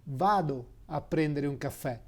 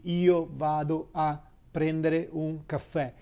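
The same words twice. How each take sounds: First: "Vado a prendere un caffè" in natural Italian, with no io; everyday Italian. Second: "Io vado a prendere un caffè" said in careful Italian, with the io kept in; teacher models the full form with "io"; full Italian sentence. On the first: Teacher showing a student the natural way to say it. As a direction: drop the pronoun and just say "Vado". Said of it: "You say". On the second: Teacher showing a student the full Italian sentence. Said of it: "that will be". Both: Shown as a demonstration.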